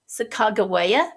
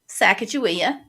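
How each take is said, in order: First: The name has a newer, less familiar pronunciation. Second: The name has its familiar, traditional pronunciation.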